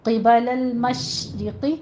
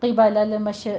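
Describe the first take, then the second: First: Slow, held sh in المشرقی with no bounce; drawn-out sh, then a thin i in المشرقی; correct recitation. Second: المش let go with a little bounce after the sh; المش with a stray short vowel after sh; wrong reading demo. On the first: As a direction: model المشرقی slowly, resting on the sh. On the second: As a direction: show the mistake: loose, bouncing end on المش. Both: Shown as a demonstration. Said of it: "ایسے نہیں پڑھنا".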